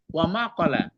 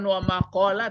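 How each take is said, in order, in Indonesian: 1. Vokalnya dibaca pendek. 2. Vokalnya dibaca panjang. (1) "tapi pendek" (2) "bukan wa maqala"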